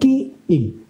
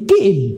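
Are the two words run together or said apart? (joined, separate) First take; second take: separate; joined. First: The two words are said slowly and apart. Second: The two words are run quickly together. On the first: The speaker calls it wrong. "bukan kiim" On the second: The speaker calls it right. "Dibaca cepat, digabungkan kata itu. Jadi kiim"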